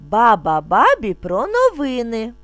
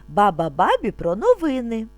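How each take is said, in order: Both takes have the same delivery.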